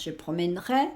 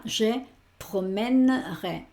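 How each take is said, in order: First: Said in the usual way. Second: "je promènerai" slow, broken as promèn-rai; silent e, split. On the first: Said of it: "con el resto de las personas". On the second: Shown as a demonstration. Teacher applying the same rule to promener, slow split demo. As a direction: say "promènerai" slowly in two chunks, middle e dropped. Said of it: "Lo mismo con promener".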